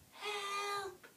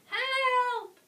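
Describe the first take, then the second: First: It is said quietly. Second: It is said loudly.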